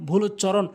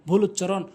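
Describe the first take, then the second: No difference in how they are said.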